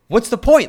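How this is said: It sounds aggressive and upbeat.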